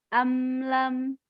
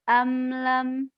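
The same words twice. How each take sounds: Both takes have the same delivery.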